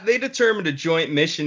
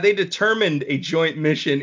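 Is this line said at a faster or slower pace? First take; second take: faster; slower. First: The line is said at a quicker pace. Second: The line is said slowly and casually. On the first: The speaker calls it wrong. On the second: The speaker calls it right.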